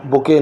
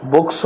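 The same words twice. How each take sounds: First: "बुकें" in two syllables ending in a nasal en; English book turned into "बुकें", nasal vowel at the end; wrong Urdu-style plural. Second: "बुक्स" as one syllable ending in ks; correct English plural. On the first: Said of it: "कुछ लोग बुकें पढ़ते हैं". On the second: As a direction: say "बुक्स" with a closing s, no extra vowel. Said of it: "बुकें नहीं होता". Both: Shown as a demonstration.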